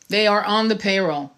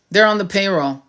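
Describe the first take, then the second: First: Are pressed on, They are on the payroll; stress on are. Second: Said in the usual way. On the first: Shown as a demonstration. Insisting to viewers about influencers, pressing the word are.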